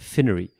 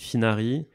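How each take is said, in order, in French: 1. Le nom se prononce à l'américaine. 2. Le nom se prononce à la française. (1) "les Américains, ils disaient" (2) "Moi, je dis Finari"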